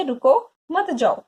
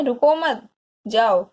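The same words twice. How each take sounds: First: Raised "रुको", then "मत जाओ" as the mother's stop; pause after रुको. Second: "रुको मत" joined and raised, then separate "जाओ"; pause after मत. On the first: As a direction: break after रुको, meaning don't go. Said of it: "mummy जो क्या कह रही है". (माँ की तरह "रुको", फिर "मत जाओ") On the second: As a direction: run रुको मत together as the father's go-ahead, then जाओ. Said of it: "पिताजी कह रहे हैं". (पिता की तरह "रुको मत", ठहरकर "जाओ") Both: Shown as a demonstration.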